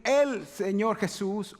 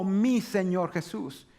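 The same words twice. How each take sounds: First: "El" drawn out and set apart; slow down and lean on "El"; stress on EL. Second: "mi" drawn out and set apart; slow down and lean on "mi"; stress on MI. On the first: (énfasis alargado en «El») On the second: (énfasis alargado en «mi») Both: Shown as a demonstration. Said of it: "Puedes decir".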